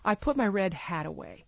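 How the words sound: The stress falls on the word hat. It answers what was put away. "hat is the last content word of the sentence"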